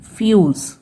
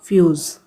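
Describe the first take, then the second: First: फ्यूज said ending in a hissed s, like fyoos; fuse with s sound. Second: फ्यूज़ said ending in a buzzing z, like fyooz; fuse with z sound. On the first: Teacher's first reading of the word, ending in s. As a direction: end फ्यूज on स. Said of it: "एस को मैंने स पढ़ दिया था". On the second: Teacher correcting the word for pupils, ending in z. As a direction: end फ्यूज़ on a voiced ज. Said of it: "ज पढ़ा जाएगा". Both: Shown as a demonstration.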